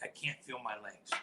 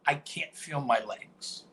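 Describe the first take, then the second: First: Low, much softer, barely there; faked injury. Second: Slow, dazed claim to the ref; faked injury. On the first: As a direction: murmur it as if hurt and weak. Faking an injury to the medics. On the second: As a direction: drag it out as if suddenly paralysed. Faking an injury to the referee.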